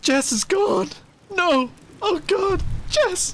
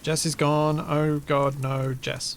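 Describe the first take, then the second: First: It is read with dramatic, emotional expression. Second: It is read flat and deadpan.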